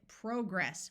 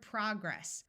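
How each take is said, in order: First: British accent, long O in the first syllable. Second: American accent, short O in the first syllable. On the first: "the British pronounce it progress with a clear long O sound" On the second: "which in American English has a short O sound"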